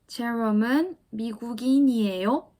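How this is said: The voice rises slightly at the end.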